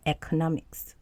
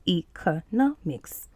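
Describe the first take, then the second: First: ECONOMICS with a short EH at the start; US pronunciation. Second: ECONOMICS with a long EE at the start; UK pronunciation. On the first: Teacher showing learners the US pronunciation, short EH to open economics. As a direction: say "economics" the American way, opening on EK. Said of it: "in U S, you say economics". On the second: Teacher showing learners the UK pronunciation, long EE to open economics. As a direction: say "economics" the British way, opening on EE. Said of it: "that's the U K pronunciation". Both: Shown as a demonstration.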